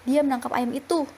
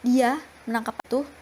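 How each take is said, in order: First: The stress is on the word itu. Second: The stress is on the word dia.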